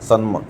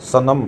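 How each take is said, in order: First: It is said as one syllable, sanm. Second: It is said as two syllables, sa-nam. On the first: The speaker calls it wrong. "ना कि सन्म" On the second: The speaker calls it right. "सनम को हम सनम पढ़ते हैं"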